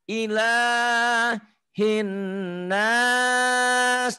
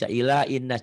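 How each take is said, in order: First: An h sound is heard after ila. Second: The h sound after ila is dropped. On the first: The speaker calls it right. "Ilah di sini Tuhan" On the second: The speaker calls it wrong. "Hanya nggak dibaca ila innas, jangan"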